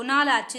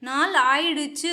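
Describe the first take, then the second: First: नाल आचु clipped to आचु; quick colloquial नाल आचु; short form. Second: नाल आइडचु said slowly with full आइडचु; full spoken नाल आइडचु; full form. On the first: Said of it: "change करके ऐसे बन जाता है". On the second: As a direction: spell out नाल आइडचु clearly, slow. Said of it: "ये pronunciation आती है". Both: Shown as a demonstration.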